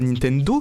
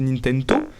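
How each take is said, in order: First: The word is said with a D sound. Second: The word is said with a T sound. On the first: The speaker calls it wrong. "il y a pas de D en Tokipona, du coup c'est pas Nintendo" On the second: The speaker calls it right. "c'est Nintendo"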